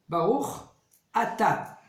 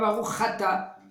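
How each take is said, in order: First: Atta is said apart, starting with a clean vowel. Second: The ch sound runs into Atta, making Chatta. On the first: The speaker calls it right. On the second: The speaker calls it wrong. "Pas Baruch Chatta. Chatta, c'est fauté"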